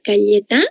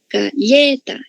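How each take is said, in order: First: The stress is on the final syllable. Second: The stress is on the middle syllable. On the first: The speaker calls it wrong. "Última" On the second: The speaker calls it right. "Penúltima"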